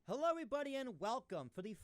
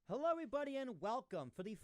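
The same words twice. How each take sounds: No difference in how they are said.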